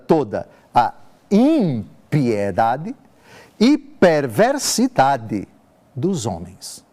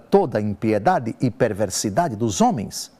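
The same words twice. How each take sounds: First: It is spoken very slowly. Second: It is spoken at a normal pace.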